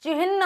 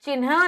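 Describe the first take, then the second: First: चिन्ह as 'chih-na', raised; higher चिन्ह ending in 'hn'; h before n. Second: चिन्ह as 'chin-ha'; n before h. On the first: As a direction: say चिन्ह with the n last. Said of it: "ना बाद में आएगा". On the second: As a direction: say चिन्ह wrongly with the n first. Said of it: "चिन्ह नहीं". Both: Shown as a demonstration.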